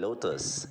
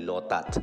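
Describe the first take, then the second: First: The word ends with an s sound. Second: The word ends with a t sound. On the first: This is the English way to say the name. "Ang pronunciation talaga ay Lotus in English" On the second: This is how local people say the name. "ang pronunciation nila dyan ay Lotat"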